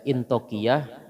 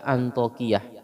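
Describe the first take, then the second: First: The name begins with an 'i' vowel. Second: The name begins with an 'a' vowel. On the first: "mungkin hamzahnya yang di bawah ya. Jadi bisa dibaca Intokiyah" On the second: "bisa juga Antokiyah"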